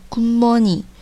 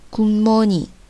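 First: It is said with the sound change. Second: It is said with the sound change.

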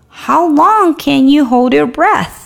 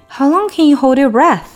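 First: It is spoken slowly and carefully. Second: It is spoken at a normal conversational speed.

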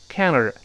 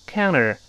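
No difference in how they are said.

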